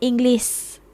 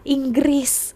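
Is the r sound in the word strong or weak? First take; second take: weak; strong. First: The r sound is weak and barely heard. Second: The r sound is strong and clearly pronounced. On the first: This is how it is said in Malaysia. "Kalau sini Inggris" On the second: This is how it is said in Indonesia. "kita bercakap R-nya itu sangat jelas"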